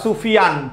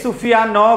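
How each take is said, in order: First: The word ends cleanly on the n consonant. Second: The final n carries an added vowel sound. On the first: The speaker calls it right. "তুমি বলবা সুফিয়ান" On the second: The speaker calls it wrong. "এরকম বলবা? No"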